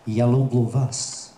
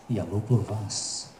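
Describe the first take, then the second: First: Said in the usual way. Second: Slower, softer "Я люблю вас"; soft romantic repeat. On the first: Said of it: "in Russian, it is". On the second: Shown as a demonstration. Comic to the audience, crooning я люблю вас softly. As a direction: murmur "Я люблю вас" slowly, like a serenade. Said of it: "softer repeat".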